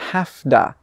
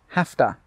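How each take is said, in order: First: It blends into one word with a d sound. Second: It blends into one word with a t sound. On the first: "With an Australian accent, we say hafda" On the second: "when a native speaker says this really quickly, it normally sounds like this"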